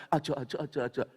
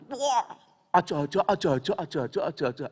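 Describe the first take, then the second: First: Tegal "aja, aja" said calmly, in an ordinary voice; a plain demo of Tegal Javanese "aja"; Tegal dialect. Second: Loud, excited Javanese Tegal "aja, aja" shouted at a sick man; shouted Tegal warning. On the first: Shown as a demonstration. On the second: Retold or imitated. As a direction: Tegal dialect mock alarm, shouting "aja". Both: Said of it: "Ya tahu orang Tegal bilang".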